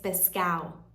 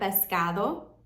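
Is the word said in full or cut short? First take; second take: cut short; full. First: The word is cut short with sounds dropped. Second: The word is said in full with every sound. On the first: "they cut words really short" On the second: "instead of pescado"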